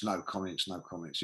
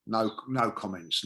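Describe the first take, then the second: First: "no comments" dropped much softer and lower, dying away; fading to nothing. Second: Said in the usual way. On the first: Shown as a demonstration. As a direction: let "no comments" fade almost to silence. Mocking silence, fading out.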